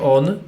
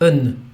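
First: The vowel in on is full. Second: The vowel in on is reduced. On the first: The speaker calls it wrong. "nie będzie on" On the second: The speaker calls it right. "tylko będzie n"

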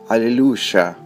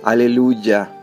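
First: It is said with a South American pronunciation. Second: It is said with another Spanish regional pronunciation. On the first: "En Sudamérica" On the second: "Y en otras partes del mundo hispano"

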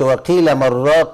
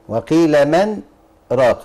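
First: The words 'man raq' run together without a pause. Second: A brief pause is held after 'man'. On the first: It means a seller of broth. The speaker calls it wrong. "يعني ايه بائع المرقه" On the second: It asks who will heal him. The speaker calls it right. "لا، سكتة لطيفة على النون"

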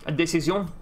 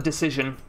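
First: It is said in a put-on French accent. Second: It is said in a normal English accent.

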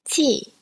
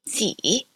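First: It is said with the fourth tone. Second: It is said with the third tone. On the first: "here is the fourth tone" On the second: "the third tone is represented with a reverse circumflex"

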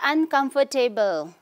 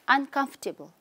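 First: The middle 'fort' part is said with a full, clear vowel. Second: The middle 'fort' part is said with a short, weak vowel. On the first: The speaker calls it wrong. "We don't say uncomfortable" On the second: The speaker calls it right. "you have to reduce the word O-R-T here"

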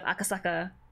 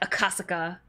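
First: The second syllable carries no strong stress. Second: The second syllable carries strong stress. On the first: The speaker calls it right. "instead of Akasaka" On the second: The speaker calls it wrong. "They always stress the second syllable, like Akasaka"

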